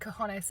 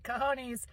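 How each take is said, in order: First: It is said in her own normal way. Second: It is said in her redneck dad's way.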